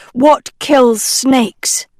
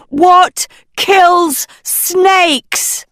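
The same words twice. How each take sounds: First: Said in the usual way. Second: Much higher, slow, loud shout. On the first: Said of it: "In storybooks". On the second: Acted. Agatha shouting the question into the cave. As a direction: call it out into the cave. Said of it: "Agatha shouted into the cave".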